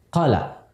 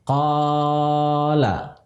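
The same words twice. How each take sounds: First: The long vowel is cut too short. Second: The long vowel is stretched far too long. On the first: "terlalu pendek" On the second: "panjangnya berlebihan"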